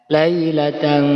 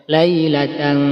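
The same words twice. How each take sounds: Both takes have the same delivery.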